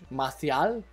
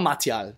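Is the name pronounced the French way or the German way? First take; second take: French; German. First: The name is said with a French pronunciation. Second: The name is said with a German pronunciation. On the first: "ich probiere es immer so französisch" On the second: "Machen wir es uns nicht so schwer"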